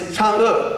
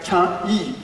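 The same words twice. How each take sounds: First: The name follows the Mandarin pronunciation. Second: The name is read literally, English-style. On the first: The speaker calls it right. "But it's Chang'e" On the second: The speaker calls it wrong. "the word literally like Chang'e. Most of people like that"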